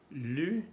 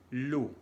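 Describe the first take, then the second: First: LU with rounded front vowel; French u sound. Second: LU said as loue, back oo; French ou sound. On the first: Teacher contrasting two vowels, fronted French u. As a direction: say LU as French u, tongue forward. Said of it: "los sonidos U". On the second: Teacher contrasting two vowels, back oo. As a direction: say LU like Spanish lu. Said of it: "y el sonido U". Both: Shown as a demonstration.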